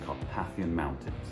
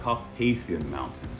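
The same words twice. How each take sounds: First: It is said in a plain, everyday accent. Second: It is said in a posh, upper-class accent.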